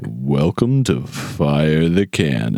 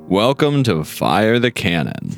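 First: It is said in a sultry voice. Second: It is said in a plain voice.

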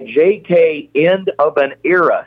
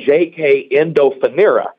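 First: The name is said as separate words. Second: The name is run together as one word. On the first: The speaker calls it right. "you're mispronouncing that horse's name" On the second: The speaker calls it wrong. "I had been calling it JK Endofanera"

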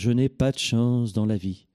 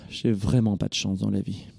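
First: It is said cheerfully with a big smile. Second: It is said gloomily with a big sigh.

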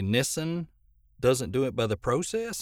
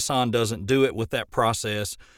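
First: It is said in a Canadian accent. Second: It is said in an American accent.

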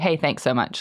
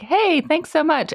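First: It sounds annoyed and sarcastic. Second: It sounds cheerful and friendly.

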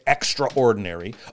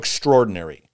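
First: The word is said as extra plus ordinary. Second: The word is said in the usual reduced way. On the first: "I say it extraordinary. Okay, because we're going to use that word extra" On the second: "if you prefer"

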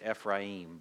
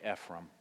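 First: The name is said with a Hebrew pronunciation. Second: The name is said with a southern pronunciation. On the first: The speaker calls it wrong. "The Hebrew pronunciation is Ephraim" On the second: The speaker calls it right. "so I go with the southern name"

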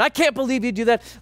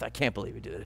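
First: It is screamed loudly. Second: It is muttered quietly.

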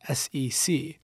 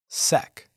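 First: It is spelled out as three letters. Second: It is said as a single word.

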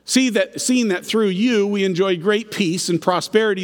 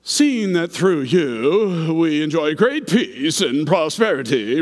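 First: It is read in a plain, neutral tone. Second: It is read in a sickly, fawning tone. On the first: The speaker calls it wrong. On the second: The speaker calls it right.

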